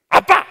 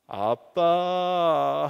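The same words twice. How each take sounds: First: Sharp, much louder bark of dad; annoyed shout. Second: Very slow, drawn-out sweet call; wheedling call. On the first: Son pushing dad away, annoyed loud shout. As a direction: snap at dad to keep away. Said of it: "자기를 만지지 말라는". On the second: Son wanting something from dad, long wheedling call. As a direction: stretch it out to ask for something. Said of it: "뭘 달라고 하-, 요구하는 겁니다". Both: Retold or imitated.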